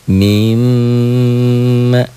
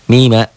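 First: The m is doubled, held and nasalized. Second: The m is single, short and unheld. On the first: "Kembalikan kembali tasjidnya" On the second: "Dobelnya gak ada. Dengungnya gak ada"

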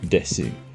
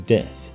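First: The final u is clearly pronounced after s. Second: The final u is silent, ending in s. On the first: The speaker calls it wrong. "not desu" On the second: The speaker calls it right. "We never pronounce the U in desu. We simply say it as desu"

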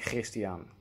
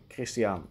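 First: The name starts with a throaty G sound. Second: The name starts with a hard K sound. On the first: This is an old-fashioned, rarely heard pronunciation. "You barely hear anyone pronouncing Christiaan in that way" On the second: This is the common everyday pronunciation. "the K is easier and shorter to make, so people will go with Christiaan"

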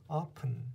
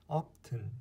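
Both takes have the same delivery.

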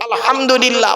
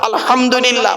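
Both takes have the same delivery.

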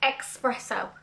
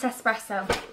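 First: It begins with an 'ex' sound, like exercise. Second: It begins with a plain 'es' sound, no x. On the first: The speaker calls it wrong. "like exercise" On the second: The speaker calls it right. "No X, just Espresso"

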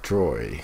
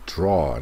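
First: The vowel sounds like oy. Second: The vowel sounds like aw. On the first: The speaker calls it wrong. "not droy" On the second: The speaker calls it right.

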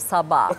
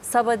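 First: An a vowel is held long. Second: The vowels are short and plain. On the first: The speaker calls it right. "o ayı uzatmak zor geldiği için" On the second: The speaker calls it wrong. "Sabah değil çocuğum"

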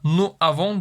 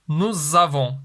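First: The s of nous is silent, with no link. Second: The s of nous links as a z sound. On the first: The speaker calls it wrong. "burada nous avons demiyoruz" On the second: The speaker calls it right. "S sesi Z'ye dönüşüyor. ... Nous avons diyoruz"

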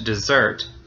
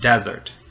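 First: The stress is on the second syllable. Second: The stress is on the first syllable. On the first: It is a verb: leaving your friends behind. "But you can also say with the final syllable being stressed" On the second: It is a noun: a dry place like the Sahara. "Then the first syllable is stressed"

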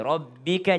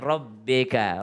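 First: The middle vowel is a clear, pure i. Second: The middle vowel sounds close to e. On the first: The speaker calls it right. "kembali i" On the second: The speaker calls it wrong. "seakan-akan e"

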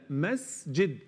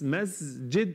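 First: The s sound is a clear hiss. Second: The s sound is buzzed like z. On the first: The speaker calls it right. "لا مسجد" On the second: The speaker calls it wrong. "مس مش مز"

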